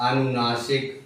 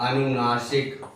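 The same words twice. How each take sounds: No difference in how they are said.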